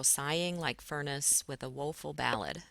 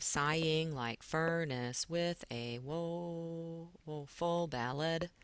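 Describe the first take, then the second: First: Said in the usual way. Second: "SIGHing like FURnace WITH a WOEful balLAD" slow, each stressed syllable pushed; slow beat-by-beat scan of the line. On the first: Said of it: "how I just said that". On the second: Shown as a demonstration. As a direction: punch SIGH, FUR, WITH, FULL and LAD in "sighing like furnace with a woeful ballad". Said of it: "the capital letters here are the stressed syllables".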